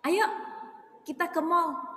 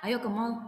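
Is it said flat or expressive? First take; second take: expressive; flat. First: It is said with lively, expressive intonation. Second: It is said flatly, with no expression.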